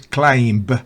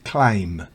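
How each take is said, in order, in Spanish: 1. La b se pronuncia. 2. La b es muda. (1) "no es climb" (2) "es climb"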